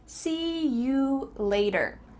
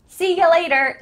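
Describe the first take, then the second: First: The middle word is a full, clear you. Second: The middle word is reduced to ya. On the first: "This is the clearest way to say it" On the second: "a little more relaxed and maybe a more common version"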